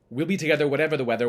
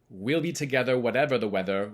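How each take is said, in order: First: It is said at a faster pace. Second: It is said at a slower pace.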